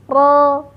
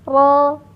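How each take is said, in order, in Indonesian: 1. Bunyi r digetarkan hanya dengan sedikit getaran. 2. Bunyi r digetarkan hanya dengan sedikit getaran.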